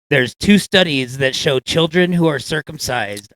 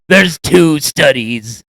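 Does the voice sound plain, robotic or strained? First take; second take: plain; strained. First: It is read in a plain, normal voice. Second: It is said in a strained, pained voice.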